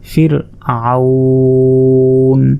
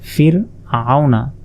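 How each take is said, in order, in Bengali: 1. শব্দটি শেষ স্বরধ্বনি ছাড়া শেষ হয়। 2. শব্দটি একটি শেষ স্বরধ্বনি দিয়ে শেষ হয়।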